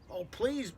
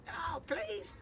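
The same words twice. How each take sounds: First: A higher, pleading "Oh, please"; fearful plea, less high. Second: A much higher, thinner "oh, please"; desperate spider plea, higher; higher pleading. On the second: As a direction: beg harder, pitch rising. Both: Acted. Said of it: "Miss Spider called out".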